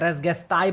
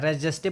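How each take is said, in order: First: The second word begins with a hard g sound. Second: The second word begins with a soft j sound. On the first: "कोई लोग रेस रेस गेस्टाई भी बोलते हैं" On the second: "मैं रेस जेस्टे बोलता हूँ"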